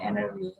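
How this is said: American style, the t is dropped.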